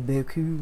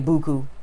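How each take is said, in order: First: It is said with a French pronunciation. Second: It is said with a New Orleans pronunciation. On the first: "like the French people say it" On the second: "We just say buku"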